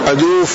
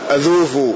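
First: The middle consonant is a plain 'd' sound. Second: The middle consonant is a 'dh' sound. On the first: "هكذا جاءت الرواية بالدال والواو والفاء" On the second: "وفي بعض الروايات جاء بالذال أذوف بدلا من الدال"

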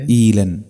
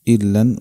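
First: Long i followed by a single light l. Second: Short i followed by a doubled l. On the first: This is a minority reading. "بياء بعد الهمزة خفيفة اللام" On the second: This is the majority reading. "وقرأ جمهور الناس إلا"

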